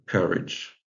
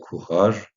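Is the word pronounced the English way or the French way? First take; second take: English; French. First: It is pronounced the English way. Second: It is pronounced the French way. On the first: "mais qui se prononce courage" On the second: "le français courage"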